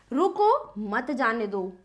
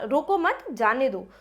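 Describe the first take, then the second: First: "रुको" raised, then a clear pause before a lower "मत जाने दो"; pause after रुको. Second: "रोको मत" run together, then a pause before "जाने दो"; pause after मत. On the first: Teacher showing pupils how a comma works, pausing right after "रुको". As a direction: break after "रुको", keeping "मत जाने दो" together. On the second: Teacher shifting the comma to change the meaning, pausing after "मत". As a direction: slowly, break after "मत", not after "रोको". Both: Shown as a demonstration. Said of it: "यही विराम हम यहाँ पर लगा देते हैं".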